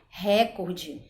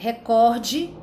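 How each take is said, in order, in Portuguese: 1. A tônica está na primeira sílaba. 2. A tônica está na segunda sílaba.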